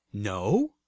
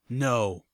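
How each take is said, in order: First: Questioning with a steep final rise; surprised. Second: Lightly mechanical, level refusal; mechanical intoning. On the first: Narrator sits back at the bot's refusal, surprised question. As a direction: echo it back in disbelief. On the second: Sprite bot refuses narrator's favor, mildly mechanical intoning. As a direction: intone it evenly, a hint of machine. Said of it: "the sprite bot's mechanical voice intoned". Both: A narrator's reading.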